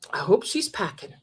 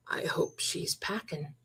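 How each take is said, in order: First: Said in the usual way. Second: Breathy, hushed whisper, much softer. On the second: Retold or imitated. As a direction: lean in and whisper it like a secret. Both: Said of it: "So you know what I ha-, said?".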